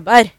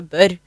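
First: The first vowel is an unrounded e sound. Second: The first vowel is a rounded ø sound. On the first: This is the Solør dialect form. "en solung fisker ebber" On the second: This is the Odal dialect form. "dere fisker øbber"

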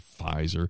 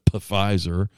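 First: The initial P is silent. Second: The initial P is pronounced. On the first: The speaker calls it right. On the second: The speaker calls it wrong.

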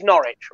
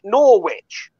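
First: The name is said the British way. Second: The name is said the American way. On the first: This is the original town in England. "If you're in the UK, that town is Norwich" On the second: This is the town in Connecticut. "you pronounce it Norwich"

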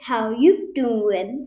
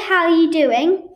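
First: The word 'are' is dropped from the phrase. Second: The full phrase is said, including 'are'. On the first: The speaker calls it right. "That is how it's said" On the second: The speaker calls it wrong. "You don't go"

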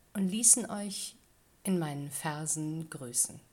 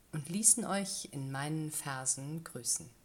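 Both takes have the same delivery.

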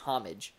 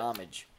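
First: The word begins with a sounded h. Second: The word begins without an h sound. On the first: "he always says with an H" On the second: "But I wouldn't pronounce it with an H"

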